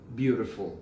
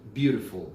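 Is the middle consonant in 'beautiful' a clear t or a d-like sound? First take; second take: d-like; d-like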